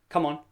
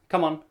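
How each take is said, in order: The two takes are said the same way.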